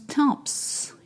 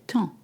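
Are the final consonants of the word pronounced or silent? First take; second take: pronounced; silent. First: The final consonants are pronounced aloud. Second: The final consonants are silent. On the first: The speaker calls it wrong. "You don't pronounce temps" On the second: The speaker calls it right. "You say temps"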